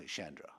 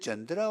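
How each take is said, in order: First: "Chandra" starting with a soft SH as in shop. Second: "Chandra" starting with a CH as in chair; Chandra with hard CH. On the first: Councillor offering the other pronunciation, "Chandra" with an SH. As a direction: say "Chandra" with sh, not ch. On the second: Councillor checking the speaker's name, "Chandra" with a hard CH. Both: Shown as a demonstration. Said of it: "I pronounce it with a sh".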